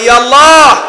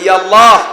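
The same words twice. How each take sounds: First: It is said even more loudly. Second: It is said loudly.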